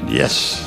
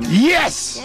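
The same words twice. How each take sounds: First: It is said flatly, with little enthusiasm. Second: It is said with more enthusiasm.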